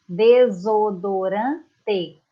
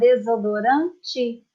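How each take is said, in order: First: The final vowel is pronounced as an E sound. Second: The final vowel is pronounced as an I sound. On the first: It follows the written standard form. "Essa é a forma correta, a forma escrita" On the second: It reflects a regional way of speaking. "Nós temos uma tendência para falar desodorante"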